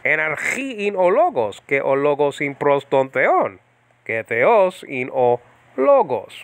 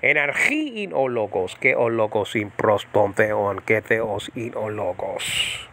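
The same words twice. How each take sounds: First: Flowing modern Greek, ke o logos; native-style Greek reading; modern Greek pronunciation. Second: Quicker modern Greek, ke for kai; modern Greek pronunciation. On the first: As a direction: en archiin o logos said quickly like a native. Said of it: "go faster and sound like a Greek". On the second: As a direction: theos in o logos with modern e and o vowels. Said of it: "It goes something like this". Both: Shown as a demonstration.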